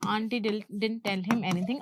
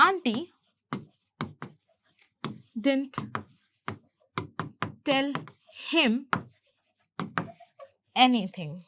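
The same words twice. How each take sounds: First: Said in the usual way. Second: Slow dictation, very long pauses between words. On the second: Shown as a demonstration. Teacher letting learners say it along, word by word. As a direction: isolate each word for learners to repeat. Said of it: "आप साथ साथ में कर रहे होंगे".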